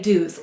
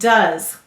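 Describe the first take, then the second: First: The vowel is a long 'oo' sound. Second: The vowel is a short 'uh' sound. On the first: This is a spelling pronunciation for writing it. "we're going to say to spell do's. It sounds a little funny" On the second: This is the normal spoken form. "you can hear the schwa vowel uh"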